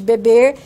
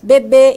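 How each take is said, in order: First: The final r sound is pronounced. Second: The final r sound is dropped. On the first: "em vez de" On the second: "elisão do R"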